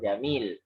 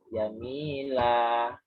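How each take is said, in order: First: The word ends in a consonant, no final vowel. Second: The word ends in a long vowel, two beats. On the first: The speaker calls it wrong. "tidak dibaca jamil" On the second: The speaker calls it right. "satunya panjang, dua ketuk"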